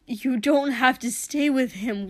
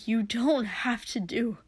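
First: Louder pleading, pushing through; loud desperate plea. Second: Breathless whispered plea. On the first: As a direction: press the plea harder. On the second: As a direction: drop to a whisper, pleading. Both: Acted. Pleading with his brother.

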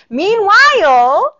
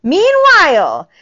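First: Drawn-out meanwhile. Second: Loud emphatic meanwhile. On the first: First of two meanwhiles. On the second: Repeated for emphasis. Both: Real, not acted.

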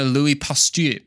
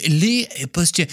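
First: Said in the usual way. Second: Higher, put-on French accent; playful mock French accent; fake French accent. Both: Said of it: "I said that in my fake French accent".

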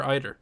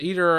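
First: "either" said EYE-ther; "either" beginning like the word eye; EYE-ther pronunciation. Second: "either" said EE-ther; "either" beginning like the ee in see; EE-ther pronunciation. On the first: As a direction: give "either" a long I first syllable. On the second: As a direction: give "either" a long E first syllable. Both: Shown as a demonstration. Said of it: "Is it either or, or either?".

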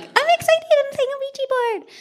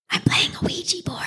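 First: Put-on high, squeaky little girl voice; cute eleven-year-old. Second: Hushed secret whisper; whispered quote. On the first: Imitating Janet as an excited eleven-year-old girl. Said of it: "cuter and, like, eleven-year-old-y". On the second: Retold or imitated. Retelling a sister's secret, whispered. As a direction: breathe it like a kid hiding. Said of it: "She probably said it, like, cuter".

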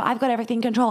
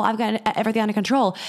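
First: Mock self-assurance. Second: Quicker mock self-assurance. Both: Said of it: "acting out their trauma of".

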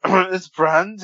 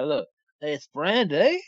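First: Higher, slow mock leer on "It's Brandy"; imitating creepy voice. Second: Slow, drawn-out, lighter creep; mock creepy voice. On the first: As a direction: mimic his creepy drawl. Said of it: "How you did was". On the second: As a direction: stretch "Brandy" slowly with a rise. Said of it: "I'll do it this way".

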